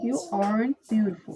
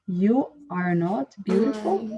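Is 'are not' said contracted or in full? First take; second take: contracted; full. First: Are and not merge into one short word. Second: Are and not are said as two full words. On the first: "Se for contração" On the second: "Se fosse você não é"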